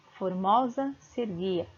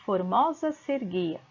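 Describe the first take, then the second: First: "Formosa", slight pause, then "se erguia" fused as serguia; "Formosa se erguia" in two deliberate chunks; fusion picked out. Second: "formosa se erguia" run together, se and er fused as ser; "formosa se erguia" in one joined flow; phonetic joining. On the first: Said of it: "essas duas sílabas se juntam". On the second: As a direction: glide "se" straight into "erguia" as serguia. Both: Shown as a demonstration.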